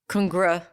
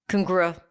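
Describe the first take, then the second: Both takes have the same delivery.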